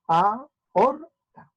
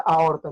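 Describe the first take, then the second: First: "aorta" slowly split, a-or-ta; long pauses inside "aorta", A apart from O; syllable by syllable. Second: Said in the usual way. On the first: Shown as a demonstration. ("aorta" lento, separado en a-or-ta) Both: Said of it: "Entonces se separa".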